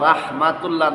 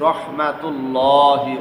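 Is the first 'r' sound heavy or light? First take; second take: light; heavy. First: The first r sound is light and thin. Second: The first r sound is heavy and full. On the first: The speaker calls it wrong. "রাহমাতুল্লাহ না বলে" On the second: The speaker calls it right. "আমরা বলছি রহমাতুল্লাহি"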